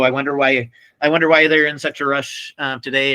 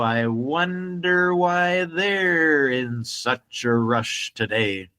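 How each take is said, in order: First: The sentence is spoken quickly. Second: The sentence is spoken slowly. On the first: The speaker calls it wrong. "he wouldn't say it that fast" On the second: The speaker calls it right. "He would say"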